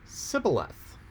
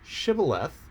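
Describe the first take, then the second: First: The word begins with an s sound. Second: The word begins with an sh sound. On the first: "didn't have the sh sound in their language. So when they said shibboleth, it came out sibboleth" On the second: "the word for that in Hebrew was shibboleth"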